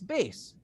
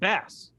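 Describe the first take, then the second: First: The vowel is long, as in 'base'. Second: The vowel is short, as in 'mass'. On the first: This is the musical sense of the word. "in music, it's bass" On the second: This is the everyday sense of the word. "You would pronounce it bass"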